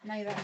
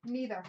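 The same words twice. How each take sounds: First: Neither said as NYE-ther, eye sound; NYE-ther pronunciation. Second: Neither said as NEE-ther, long ee; NEE-ther pronunciation. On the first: The second way to say it: neither as NYE-ther. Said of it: "Or neither". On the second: Offering both ways to say it: neither as NEE-ther. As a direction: say neither with ee as in knee. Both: Shown as a demonstration.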